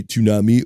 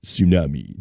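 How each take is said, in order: First: Tsunami with a T sound first, TSOO-nah-mee; alternative pronunciation. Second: Tsunami with a silent T, SOO-nah-mee; alternative pronunciation. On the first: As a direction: start tsunami on a crisp TS. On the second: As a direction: drop the T from tsunami. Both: Shown as a demonstration. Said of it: "Do you say tsunami or".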